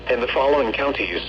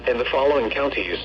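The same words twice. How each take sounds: The two takes are said the same way.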